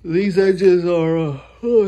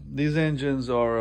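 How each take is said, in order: First: Talking through a yawn. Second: Said in the usual way. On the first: Real, not acted. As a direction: yawn mid-sentence. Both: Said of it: "excuse me for yawning on y'all".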